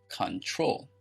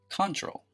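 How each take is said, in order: First: The stress is on the second syllable. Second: The stress is on the first syllable. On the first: The speaker calls it right. "The stress is on the second syllable" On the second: The speaker calls it wrong. "It is not pronounced control"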